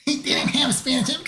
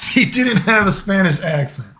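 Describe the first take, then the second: First: High-pitched voice of a nitpicking critic; mock objector. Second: Said in the usual way. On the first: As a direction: put on a squeaky mock complaint. Voices an imagined objector to his accent.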